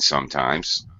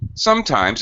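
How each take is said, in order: First: The word is said with a very low pitch. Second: The word is said with a higher pitch. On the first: "Very low because it's ending the sentence" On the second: "Notice how different sometimes sounds when it starts the sentence"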